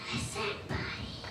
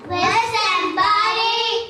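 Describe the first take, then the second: First: It is whispered softly. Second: It is shouted loudly.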